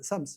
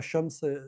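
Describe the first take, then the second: First: The word begins with an s sound. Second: The word begins with an sh sound. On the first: "الفلاحين أو في الأرياف" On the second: "الشين"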